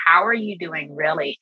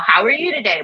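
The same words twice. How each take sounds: First: Mean the word "really"; sincere check-in. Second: "How are you today?" tossed off higher and light; a quick polite "How are you today?"; breezy casual greeting. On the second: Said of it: "not just, you know". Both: Retold or imitated.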